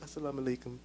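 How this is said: It is said in a sad, flat way.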